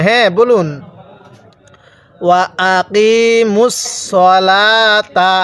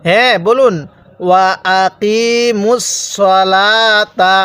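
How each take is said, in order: No difference in how they are said.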